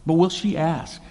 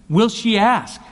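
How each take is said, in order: First: "will" pushed up, the question repeated; stress on will. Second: Will she ASK, high and louder on "ask"; stress on ask. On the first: Preacher restating the question, weight on "will". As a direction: land on "will" with a touch more force. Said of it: "And by extension". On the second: Preacher posing the key question, "ask" hit high and loud. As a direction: lean hard into "ask" as the question. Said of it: "One question is". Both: Shown as a demonstration.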